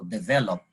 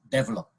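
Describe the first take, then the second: First: The stress is on the second syllable. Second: The stress is not on the second syllable. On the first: This is the dictionary standard form. "it says that the accent should be on the second syllable" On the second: This is a common accepted regional variant. "one billion Indian Indian nationals would pronounce it develop"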